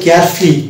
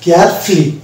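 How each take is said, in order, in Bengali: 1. f-এর পরের স্বরধ্বনিটি নীরব থাকে। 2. f-এর পরের স্বরধ্বনিটি নীরব থাকে।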